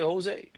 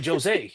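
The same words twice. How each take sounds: First: The name begins with an H sound. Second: The name begins with an English J sound. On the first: The speaker calls it right. "No, you say Jose. Okay, it's pronounced H" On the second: The speaker calls it wrong. "They don't say Joe"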